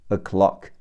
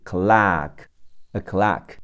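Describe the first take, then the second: First: Said in the usual way. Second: American open "ah" vowel in clock; American pronunciation. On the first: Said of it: "美式发音是clock". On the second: Shown as a demonstration. Teacher shows learners the American pronunciation of clock, American accent. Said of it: "美式发音是".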